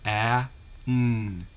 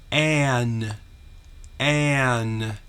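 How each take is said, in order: First: "A, n" as apple vowel, pause, held n; segmented phonics "A, n", the A short as in apple; sounds separated. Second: "an" drawn out, apple vowel into held n; emphatic phonics "an", both sounds joined; dictated sound blend. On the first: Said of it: "two sounds". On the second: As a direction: dictate "an" clearly as one stretched blend. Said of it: "short A sound pronounced followed by a consonant". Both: Shown as a demonstration.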